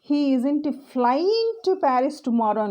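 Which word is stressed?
flying. The stress falls on the word flying. He is going there, but not by plane. "So he is going to Paris but not through a plane"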